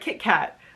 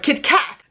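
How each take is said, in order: First: The stress falls in its usual natural place. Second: The stress is shifted to an unusual syllable. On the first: "instead of a Kit Kat" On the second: "he used to call it a, a Kit Kat"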